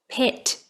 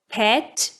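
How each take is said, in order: First: The vowel is less open, with the tongue higher. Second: The vowel is more open, with the tongue lower. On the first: "or narrower" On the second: "It can be broader"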